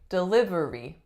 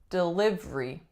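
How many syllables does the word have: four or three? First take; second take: four; three. First: All four syllables are pronounced fully. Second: The third syllable is dropped, giving three syllables. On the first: "a lot of my clients say delivery" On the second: "we get rid of that third syllable and we get delivery"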